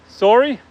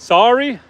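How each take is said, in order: First: "Sorry" with rounded o, SORE-ee, high rising question; contrasting pronunciation. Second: "Sorry" with open ah, SAR-ee, higher and louder; testing pronunciation. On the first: Vlogger testing a viewer's comment, "Sorry" as SORE-ee. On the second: Vlogger testing a viewer's comment, "Sorry" as SAR-ee. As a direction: try out "Sorry" as sah-ree. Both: Shown as a demonstration. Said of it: "say sorry instead of sorry".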